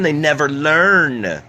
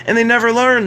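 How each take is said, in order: First: They never learn, stretched out slowly and firmly; slow, weighted echo; slow emphatic repeat. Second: They never learn, flung out high and loud; exasperated outburst; loud exasperated cry. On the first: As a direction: drag each word out to drive it home. Emphatic repeat, slowed take. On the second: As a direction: throw it up high in disbelief. Emphatic repeat, first take. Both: Acted.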